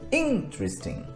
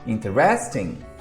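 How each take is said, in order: First: The stress falls on the first syllable. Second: The stress falls on a later syllable. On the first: The speaker calls it right. "a pronúncia correta está no in" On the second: The speaker calls it wrong. "E daí vem a pronúncia errada"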